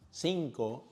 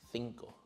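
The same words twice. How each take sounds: First: The c is said with an s sound. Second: The c is said with a th sound. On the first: This is how most Latin Americans say it. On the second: This is how many speakers in Spain say it.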